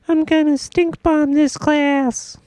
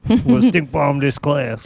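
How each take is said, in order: First: It is said in a girlish put-on voice. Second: It is said in a boyish put-on voice. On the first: The speaker calls it right. "That was better" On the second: The speaker calls it wrong. "She doesn't sound like that"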